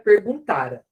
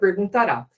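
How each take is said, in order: First: The stress falls on the second-to-last syllable. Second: The stress falls on the last syllable. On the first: It refers to a past before another past. The speaker calls it right. "cuidado com o acento" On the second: It refers to the future. The speaker calls it wrong. "Senão fica perguntará"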